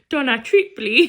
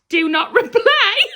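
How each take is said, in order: First: It is read as the name Donna Tripoli. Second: It is read as the words do not reply. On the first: The email address is misread as a person's name. The speaker calls it wrong. "Sean thought it said Donna Tripoli" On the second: The email address is read as it is meant. The speaker calls it right. "when you get an email off someone and it says like"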